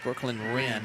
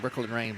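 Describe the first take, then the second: First: The surname sounds like 'rin'. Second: The surname rhymes with 'rain'. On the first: The speaker calls it right. "R I N is how they pronounce it" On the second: The speaker calls it wrong. "all week long in show prep, I was uh, it was Brooklyn Rain"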